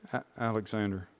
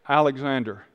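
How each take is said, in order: First: It is said quietly and hesitantly. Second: It is said louder and more firmly.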